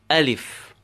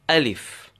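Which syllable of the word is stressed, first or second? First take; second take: first; first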